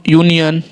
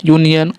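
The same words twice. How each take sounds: The two takes are said the same way.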